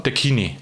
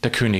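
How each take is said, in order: First: It is said in the Bavarian form Kini. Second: It is said in the Standard German form.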